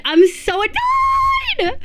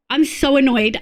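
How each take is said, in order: First: Very high, drawn-out tantrum whine; exasperated wail stretched long and high; annoyed wail. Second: Said in the usual way. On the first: Real, not acted. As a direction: screech it out like a tantrum.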